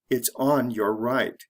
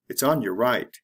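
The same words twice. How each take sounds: First: It is said slowly and fully. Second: It is said fast and reduced.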